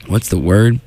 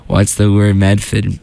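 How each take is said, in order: First: Said in the usual way. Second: Put-on slow Boston-accent catchphrase; a light Medford twang. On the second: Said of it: "I love doing the Boston accent".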